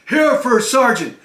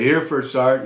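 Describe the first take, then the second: First: It is shouted loudly and sharply. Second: It is said softly, without force. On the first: The soldier is answering properly at attention. The speaker calls it right. "You're supposed to shout it out" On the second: The soldier is answering improperly. The speaker calls it wrong. "You don't say, here, First Sergeant. You don't do that"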